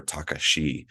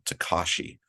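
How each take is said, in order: First: Takashi said slowly, the Japanese way; Japanese pronunciation. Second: Said in the usual way. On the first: Shown as a demonstration. Guest showing how they pronounce his middle name, Takashi said the Japanese way. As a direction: say "Takashi" as native speakers pronounce it. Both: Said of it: "as they pronounce it".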